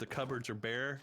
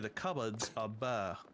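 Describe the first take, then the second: First: A plain accent pronounces the final r. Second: A rich upper-class Southern accent drops the final r.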